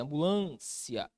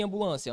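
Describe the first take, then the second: First: "Ambulância" with a long, drawn-out LÂN; stressed syllable demo. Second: Said in the usual way. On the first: Shown as a demonstration. Teacher pointing out the tonic syllable, LÂN held long in "Ambulância". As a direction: slowly stretch am-bu-LÂN-cia on the LÂN. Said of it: "Na antepenúltima posição". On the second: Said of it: "Olha aqui em ambulância".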